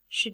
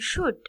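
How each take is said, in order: First: The vowel is reduced to a weak schwa. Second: The vowel is full and clearly pronounced. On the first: "It is the weak form" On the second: "The strong form of should"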